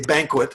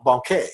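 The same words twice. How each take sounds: First: The word is pronounced the English way. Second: The word is pronounced the French way. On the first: "It's just like you say banquet" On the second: "in French you say ban banquet"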